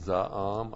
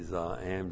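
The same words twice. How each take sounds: First: Both vowels sound about the same length. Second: The first vowel is long, the second short. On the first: The verb and noun sound alike. "They pronounce it za'am" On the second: It marks the word as the verb. "I say za'am just so I know that this is the verb and not the noun"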